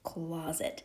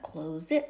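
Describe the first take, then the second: First: The first vowel is short, with a weak ending. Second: The first vowel is long, like in 'close'. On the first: The speaker calls it right. "now you have a closed syllable" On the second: The speaker calls it wrong. "this probably would be the open syllable"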